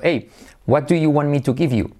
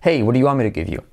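First: The words are said separately, without linking. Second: The words are linked together with intonation. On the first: The speaker calls it wrong. "si tú estás toda la vida diciendo" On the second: The speaker calls it right. "Es radicalmente distinto a"

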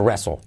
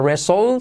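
First: It ends with a light L sound. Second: It ends without any L sound. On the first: The speaker calls it right. "Con una pizquita de L al final. ... sino wrestle" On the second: The speaker calls it wrong. "No sería wrestle"

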